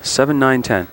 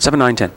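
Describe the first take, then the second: First: The numbers are said at an ordinary, slower pace. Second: The numbers are said quickly, run close together.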